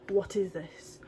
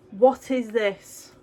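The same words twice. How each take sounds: First: Soft whispered "What is this?". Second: Drawn-out, stressed "What is this?"; slow emphatic. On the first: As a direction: breathe it out, hushed and unvoiced. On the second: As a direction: lean on "What", slowly and deliberately. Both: Shown as a demonstration.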